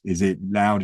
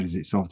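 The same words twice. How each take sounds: First: Said in the usual way. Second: Said softer, dropping away; a quietly spoken demo of softness. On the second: Shown as a demonstration. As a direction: ease the voice down on soft. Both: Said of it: "the tonality of our voice".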